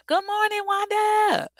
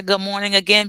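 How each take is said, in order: First: High, loud Southern greeting shouted to Wanda; proud Southern accent call across the room. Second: Said in the usual way. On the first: Shown as a demonstration. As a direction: belt out "Good morning, Wanda" in a thick Southern accent. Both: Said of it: "I didn't think I lost my accent".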